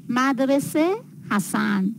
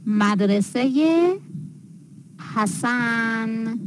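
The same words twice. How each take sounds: First: Said in the usual way. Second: "مدرسهٔ حسن" as madrese-ye Hasan, drawn out; linking ezafe ye. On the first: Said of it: "خانه، مدرسه، دو شکل". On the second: Shown as a demonstration. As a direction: add a clear "ye" after مدرسهٔ, pause, then a long حسن. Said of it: "دو شکل".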